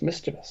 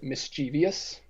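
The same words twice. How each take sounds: First: It is said with only three syllables. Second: It is said with an extra fourth syllable. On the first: The speaker calls it right. "there's not an extra syllable there. It's just mischievous" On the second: The speaker calls it wrong. "when people pronounce it mischievous"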